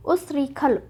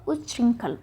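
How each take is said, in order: First: उच्छृंखल as "usrikhal"; उच्छृंखल run together as us-ri-khal; wrong form shown. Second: उच्च श्रृंखल as "uch-shrinkhal"; उच्च श्रृंखल with ch, then nasal "rin"; correct form shown. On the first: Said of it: "ना होके क्या होगा". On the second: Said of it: "च और छ का प्रयोग". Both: Shown as a demonstration.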